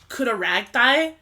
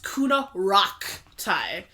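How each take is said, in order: First: The middle syllable is said like 'rag'. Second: The middle syllable is said like 'rock'. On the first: It follows how the name is spelled. The speaker calls it wrong. "I know it looks like it should say Kunaragthai, but that's wrong" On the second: It is how the family really says the name. The speaker calls it right. "So it is pronounced Kunaraktai"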